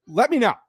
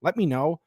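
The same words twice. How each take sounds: First: Insist, let me KNOW; pushy repeat. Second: Said in the usual way. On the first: Real, not acted. Streamer urging chat to answer, louder.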